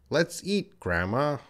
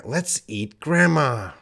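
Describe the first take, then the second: First: "Let's eat", pause, "grandma" rising at the end; comma pause. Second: "let's eat grandma" high, falling on "grandma"; no pause. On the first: Teacher showing the comma, pause before "grandma", rising end. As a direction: break after "eat" and lift "grandma". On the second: Teacher showing the missing comma, "eat grandma" joined, falling. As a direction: join "eat" to "grandma" and drop the end. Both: Shown as a demonstration. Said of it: "That comma can be a pause".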